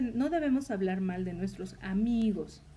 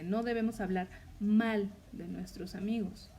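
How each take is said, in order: First: The word amigos carries the emphasis. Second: The word mal carries the emphasis. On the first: Speaking ill of female friends is allowed. "se puede malinterpretar en la última palabra" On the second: Speaking well of them is required. "Ahí el énfasis es en la palabra mal"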